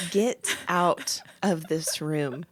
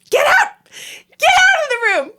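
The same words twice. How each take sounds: First: Low, soft, very slow order; cold, controlled fury. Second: High, loud retold scream; furious yelling. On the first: Retold or imitated. Wife staring at husband after his advice, cold controlled fury. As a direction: spell it out with quiet menace. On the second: Wife throwing husband out of the room, furious yelling. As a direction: yell it at the top of the voice. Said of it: "yelling at him".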